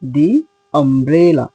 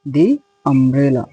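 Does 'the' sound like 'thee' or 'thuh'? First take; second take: thee; thee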